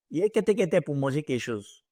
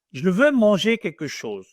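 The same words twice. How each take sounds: First: Ivorian French street slang. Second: Neutral standard French. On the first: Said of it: "That is the Ivorian French". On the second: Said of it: "This is the normal French". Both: Shown as a demonstration.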